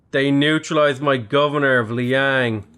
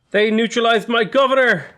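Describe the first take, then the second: First: Said in the usual way. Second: Much higher, louder outcry; real shock at the bad news. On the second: Real, not acted. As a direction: blurt it out in disbelief. His governor suddenly neutralized.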